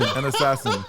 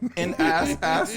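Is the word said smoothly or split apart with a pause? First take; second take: smoothly; split apart. First: The word is said smoothly without a break. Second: The word is broken apart with a pause.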